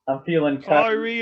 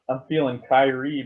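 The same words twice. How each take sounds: First: It is said in an attempted Australian accent. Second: It is said in a put-on Jamaican accent. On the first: "That was good Australian" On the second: "It's Jamaican"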